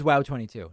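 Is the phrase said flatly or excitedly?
flatly. It is said flatly, without enthusiasm. The speaker calls it wrong. "You can't just say, oh, the code's wow twenty-two"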